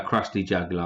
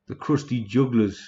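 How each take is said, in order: First: Said in the usual way. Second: Badly faked Geordie accent; terrible Geordie accent. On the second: Streamer quotes a film's Krusty Jugglers, bad Geordie accent. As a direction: attempt an accent and slip into Geordie. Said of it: "that's a fucking Geordie accent. That was terrible".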